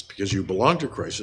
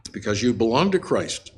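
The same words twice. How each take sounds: First: Belong leaned on, falling tune after it; a preacher underlining belong; stress on belong. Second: Said in the usual way. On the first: Shown as a demonstration. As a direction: press the word belong so it carries the point. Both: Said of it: "The emphasis".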